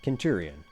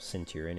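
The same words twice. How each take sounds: First: The word is said in a non-English pronunciation. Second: The word is said in an English pronunciation.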